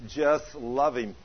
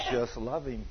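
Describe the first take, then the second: First: Slow, gentle divine words; voice of the Lord. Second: Lower, softer voice of God; quiet low divine reply; voice of the Lord. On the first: Preacher repeating God's words to his wife, slow. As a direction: let the Lord speak slowly. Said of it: "He spoke to her audibly". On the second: Preacher voicing the Lord to his wife, lower and softer. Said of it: "And the Lord says". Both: Retold or imitated.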